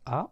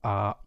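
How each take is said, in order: First: The vowel is short. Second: The vowel is drawn out long.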